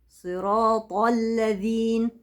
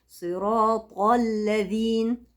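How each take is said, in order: No difference in how they are said.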